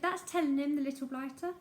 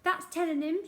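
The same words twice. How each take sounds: First: Louder spiteful shriek, fading at the end; old woman's repeated shriek; shrieked again. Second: Higher, louder gleeful shriek; old woman shrieking approval. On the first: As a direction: crow over the boy. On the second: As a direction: cheer the headmaster on spitefully. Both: Acted. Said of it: "shrieked Missus Pratchett".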